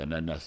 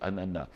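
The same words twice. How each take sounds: First: The final s is pronounced. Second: The final s is silent. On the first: This is how it is said locally. The speaker calls it wrong. "on dit ananas ici" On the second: This is how Haitians say it. The speaker calls it right. "les Haïtiens ont raison, c'est ananas. Le S, le final, ne se prononce pas"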